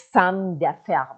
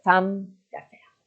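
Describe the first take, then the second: First: Said in the usual way. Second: Slow clear model. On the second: Shown as a demonstration. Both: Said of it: "یک خانم تاجر".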